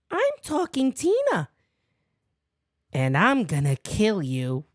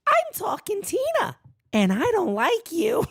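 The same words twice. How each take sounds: First: Eerie doll voice, dropping low on the threat; lightly voiced creepy doll. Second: High, eerie doll voice, starting up high; mock Talking Tina doll threat; creepy doll voice. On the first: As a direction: voice a menacing talking doll. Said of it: "Talking Tina's a great episode". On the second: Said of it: "sounds like Talking Tina from the Twilight Zone".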